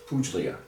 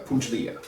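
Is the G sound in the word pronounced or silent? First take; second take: silent; silent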